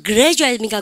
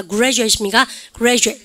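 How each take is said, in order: First: "그레주에이트" with a separate 그-레; plain GR. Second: "그레주에이트" with a rounded g-r, like 구레주에이트; blended GR. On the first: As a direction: say "그레주에이트" letter by letter. ("그레주에이트"를 글자대로) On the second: ("그레주에이트"를 구레처럼) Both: Shown as a demonstration. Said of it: "그거까지 하시면 다 하신 거예요".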